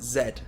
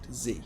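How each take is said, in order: First: It is said with a British pronunciation. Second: It is said with an American pronunciation. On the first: "British people pronounce it Z" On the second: "Americans pronounce it Z"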